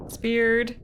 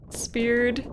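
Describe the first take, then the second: No difference in how they are said.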